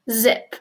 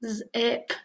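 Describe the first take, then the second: First: Said in the usual way. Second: "Zip" split into a buzzed z, then ip; sounded out. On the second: Shown as a demonstration. Teacher shows Z in a word, "Zip" split into its sounds. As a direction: sound out "Zip" in two pieces. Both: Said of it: "like in this word".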